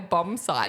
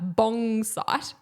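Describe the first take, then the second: First: The first word ends in an m sound. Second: The first word ends in an ng sound. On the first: The usual adult version of the word. The speaker calls it right. "I say bomb site" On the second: A child's version of the word. The speaker calls it wrong. "my daughter would call her room a bong site, B O N G"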